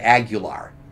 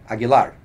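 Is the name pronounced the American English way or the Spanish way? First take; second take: American English; Spanish. First: The name is said with American English pronunciation. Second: The name is said with Spanish pronunciation. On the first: The speaker calls it wrong. "A lot of people just Americanize and say Aguilar" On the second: The speaker calls it right. "the correct pronunciation of my last name is Aguilar"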